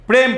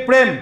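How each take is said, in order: Both takes have the same delivery.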